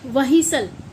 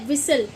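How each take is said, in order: First: An h sound is heard after the w. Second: No h sound is heard after the w. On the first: The speaker calls it wrong. "ना कि वहीसल, ऐसा कुछ नहीं बोला जाता" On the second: The speaker calls it right.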